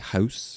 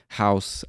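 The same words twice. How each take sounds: First: It is said in a Canadian accent. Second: It is said in an American accent. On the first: "a Canadian might say" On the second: "Like I would say, like I just did"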